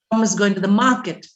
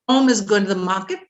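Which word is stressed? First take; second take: market; Tom. First: The stress falls on the word market. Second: The stress falls on the word Tom. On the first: "stress is on market" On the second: "stress is on Tom"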